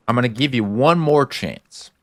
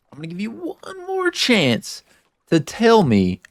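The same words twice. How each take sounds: First: Said in the usual way. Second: Voicing Ellie's ultimatum. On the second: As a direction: lift into Ellie's voice for her last warning. Retelling Ellie's ultimatum to Joel.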